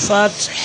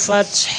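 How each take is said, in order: The two takes are said the same way.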